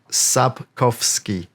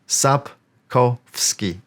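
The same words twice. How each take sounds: No difference in how they are said.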